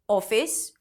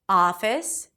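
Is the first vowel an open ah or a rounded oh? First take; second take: rounded oh; open ah. First: The first vowel is a rounded oh sound. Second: The first vowel is an open ah sound. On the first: The speaker calls it wrong. "pronouncing this O as O" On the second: The speaker calls it right. "it's actually a back open ah sound"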